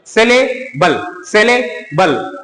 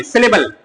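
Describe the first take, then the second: First: "सिलेबल" slowly broken, with a gap before बल; syllable by syllable. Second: Said in the usual way. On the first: Shown as a demonstration. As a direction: draw out "सिलेबल" as सिले, then बल. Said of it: "अधिक अक्षर के साथ हम लोग इसको बोलने के लिए". ("सिलेबल" को धीरे-धीरे तोड़कर) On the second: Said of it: "दो या दो से अधिक अक्षर वाले".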